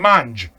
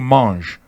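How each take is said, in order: First: It is said harder, with Neapolitan Italian pronunciation. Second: It is said with soft French pronunciation. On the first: "we talk a little harder" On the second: "we don't say mange"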